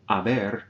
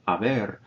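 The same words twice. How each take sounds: First: "haber" said "aber" with no H; silent H. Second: "haber" repeated as "aber", H silent. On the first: Spanish teacher showing "haber" with a silent H. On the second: Teacher repeating "haber" to show the silent H. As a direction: say "haber" again with no H sound. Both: Shown as a demonstration. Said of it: "notice I don't pronounce the H".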